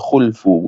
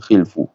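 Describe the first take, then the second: First: The first vowel is u. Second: The first vowel is i. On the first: The speaker calls it right. "bi dhammil kha'i ... bacanya khulfu" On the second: The speaker calls it wrong. "bukan khilfu"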